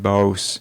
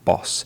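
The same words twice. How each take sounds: First: The vowel in boss is long. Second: The vowel in boss is short. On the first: The speaker calls it wrong. "she mispronounced the word boss" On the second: The speaker calls it right. "Short O sound"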